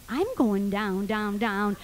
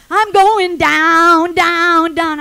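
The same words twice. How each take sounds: First: Lower, slow echo of the song; resigned thought. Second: Sung, loud, slow belted refrain; sung, belt out each word like a rock singer. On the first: Trapped woman applying the lyric to herself, resigned. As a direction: say it to yourself, sinking. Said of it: "I'm thinking to myself". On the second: Sung, storyteller imitating the song heard through the door, belting. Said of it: "He's going". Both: Retold or imitated.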